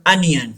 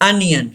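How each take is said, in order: No difference in how they are said.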